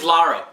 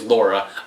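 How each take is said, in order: First: The first vowel is an open 'ah' sound. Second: The first vowel is a rounded 'aw' sound. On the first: This is the official name. "her name's Lara" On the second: This is the name fans used since childhood. "your her name ever since you were a kid was Laura"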